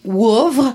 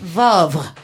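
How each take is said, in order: First: The name begins with a W sound. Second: The name begins with a V sound. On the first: "Soit tu fais le WO" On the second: "ou tu dis Vavre"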